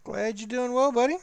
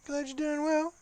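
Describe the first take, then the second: First: Said in the usual way. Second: Squeaky, much higher mock voice; silly high voice. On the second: Teasing his friend Broadsword, in a squeaky voice. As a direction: echo it in a goofy high voice.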